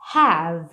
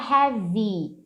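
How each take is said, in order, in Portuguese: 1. A palavra termina no som de v. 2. A palavra termina com uma vogal i acrescentada. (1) "termina no v" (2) "não é have, tá? Não tem um i final"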